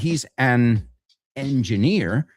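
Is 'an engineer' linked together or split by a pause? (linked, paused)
paused. A pause separates 'an' from 'engineer'. The speaker calls it wrong. "It's not"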